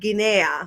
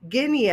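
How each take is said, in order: First: The word is pronounced the Spanish way. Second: The word is pronounced the English way. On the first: The speaker calls it wrong. "because that's the Spanish pronunciation" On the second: The speaker calls it right. "instead of saying Guinea"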